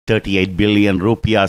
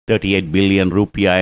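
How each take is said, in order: Both takes have the same delivery.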